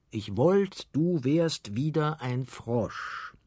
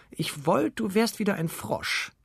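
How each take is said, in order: First: Slow, measured quote of an angry wish; quoted angry cry. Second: High-pitched, horrified princess; startled cry. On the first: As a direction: recite the angry spell slowly, only mildly heated. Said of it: "in größtem Zorn ruft". (langsam zitierter, leicht zorniger Ausruf) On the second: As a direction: cry it out high in disgusted fright. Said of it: "erschreckte sich die Prinzessin und rief". (hoher, erschrockener Ausruf) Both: A narrator's reading.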